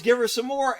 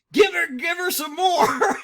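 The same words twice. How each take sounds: First: Said in the usual way. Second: Louder, higher egging-on shout; cheering yell. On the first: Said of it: "And he yells". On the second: Retold or imitated. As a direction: yell it like a rowdy fan egging them on. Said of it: "patriot was like".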